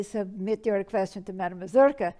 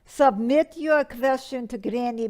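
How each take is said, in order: First: Proudly correcting the link to name herself; corrected version. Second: Said in the usual way. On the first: Retold or imitated. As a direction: stress on Mazurka, ending in a fall. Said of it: "but it should say". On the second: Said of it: "and it says".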